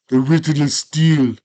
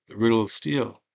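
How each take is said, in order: First: High, loud declaration; proud shout. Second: Said in the usual way. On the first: Retold or imitated. Conan answering Darth Vader, a loud proud shout. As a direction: belt it out proudly.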